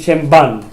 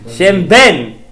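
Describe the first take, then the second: First: The second word has the vowel of 'can'. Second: The second word has the vowel of 'pen'. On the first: The speaker calls it wrong. "people are gonna say Shem ban" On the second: The speaker calls it right. "Shem ben. You don't say Shem ban"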